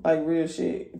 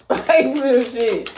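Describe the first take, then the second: First: Said in the usual way. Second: Laughs through a high, loud "Like, real shit"; cracking up mid-warning; real laughter on the words; laughing. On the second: Real, not acted. Laughing at her own warning.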